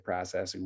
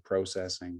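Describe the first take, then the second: First: The word has an American-style pronunciation. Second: The word has a Canadian-style pronunciation. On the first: "We don't say processing" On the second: "we say processing"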